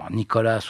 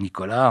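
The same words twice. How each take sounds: First: The name is said with English pronunciation. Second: The name is said with French pronunciation.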